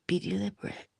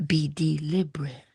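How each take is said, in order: First: Softer, lifted reminder. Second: Unvoiced whisper of the advice. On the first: Reminding viewers again, soft with a rising end. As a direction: float it up gently. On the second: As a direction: breathe the words out. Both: Shown as a demonstration. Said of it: "repeated advice".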